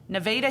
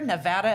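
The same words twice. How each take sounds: First: It is said the local Iowa way. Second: It is said the usual, widespread way. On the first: This is how the name is said in Iowa. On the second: This is how the name is said elsewhere. "everywhere else"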